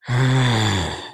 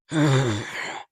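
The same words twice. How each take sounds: First: Lower, fuller mock roar; better lion roar. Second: Weak, low mock roar; bad lion roar. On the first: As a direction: give a deeper lion roar. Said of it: "That's better". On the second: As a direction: try a lion roar and fall short. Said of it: "That was a bad Lion impression".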